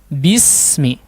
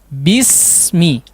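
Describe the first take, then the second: No difference in how they are said.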